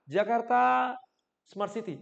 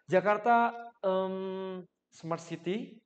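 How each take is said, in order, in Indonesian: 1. Kata sebelum jeda itu dipanjangkan. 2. Bunyi pengisi 'em' mengisi jeda. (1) "saya panjangin ah Jakarta Smart City" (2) "Daripada saya harus Jakarta em"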